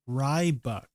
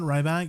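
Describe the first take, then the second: First: The second syllable sounds like 'buck'. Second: The second syllable sounds like 'back'. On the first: The speaker calls it right. "It's read as Rybuck" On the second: The speaker calls it wrong. "Not Ryback"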